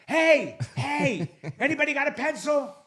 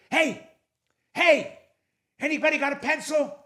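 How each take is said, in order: First: High mock shout to sleeping passengers; hammed-up cabin-wide holler, breaking into a laugh; acted louder call. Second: High, raised call to a whole cabin; joke-telling mock shout; acted calling out. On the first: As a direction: call out high, punching the first hey. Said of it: "All right, I'll try it again". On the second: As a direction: call out high, as if testing who is awake. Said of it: "You didn't scream loud enough".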